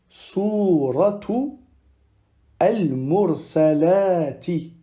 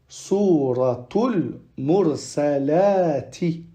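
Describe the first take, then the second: First: The two words are said separately, without linking. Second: The two words are linked into one flow.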